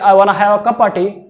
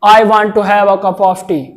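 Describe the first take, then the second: First: The small words are shortened and run together. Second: Every small word is said fully and separately. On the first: The speaker calls it right. "अगर आप इस तरह बोले" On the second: The speaker calls it wrong. "ऐसे बोलना है आपको"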